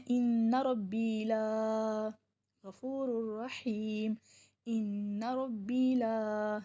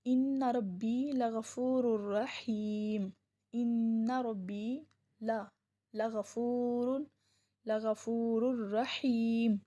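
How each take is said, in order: First: Very slow, with لا stretched long; showing the error of stretching لا slowly in the recitation; wrong stretch on لا. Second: Slow, melodic recitation; a teacher reciting the verse slowly in a chanting tone; Quran recitation. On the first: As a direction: drag out لا in ان ربی لا as the mistake. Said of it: "لیکن اگر ہم اس کو پڑھتے ہیں". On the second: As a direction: recite it slowly, drawing each word out with devotion. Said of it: "اللہ تعالیٰ نے ارشاد فرمایا". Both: Shown as a demonstration.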